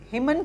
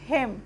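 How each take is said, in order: First: The final n sound is pronounced. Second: The final n sound is silent. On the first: The speaker calls it wrong. "इसको हम हिमन क्यों नहीं बोलेंगे?" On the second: The speaker calls it right. "तो इसको हम पढ़ेंगे हेम"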